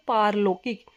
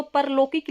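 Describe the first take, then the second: First: पारलौकिक said "paarlaukik"; correct long vowel. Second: परलौकिक said "parlaukik"; wrong short vowel. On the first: Teacher giving the correct word, long "paar" in पारलौकिक. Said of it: "शब्द होता है हमारा शुद्ध". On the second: Teacher citing the written error, short "par" in परलौकिक. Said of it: "वो गलत होगा". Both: Shown as a demonstration.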